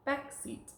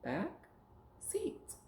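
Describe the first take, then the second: First: Said in the usual way. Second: "Back" rising, pause, then high "seat"; word chopped up. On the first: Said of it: "now we're gonna take words apart". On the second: Shown as a demonstration. Teacher repeating the take-apart drill, separate "Back", "seat". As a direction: split "Back" from "seat" clearly. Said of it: "We're gonna chop 'em up".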